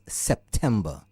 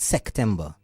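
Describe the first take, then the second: First: A p sound is heard in the middle. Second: A k sound replaces the p in the middle. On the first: The speaker calls it right. "it has a P and not a C" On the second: The speaker calls it wrong. "It's not September"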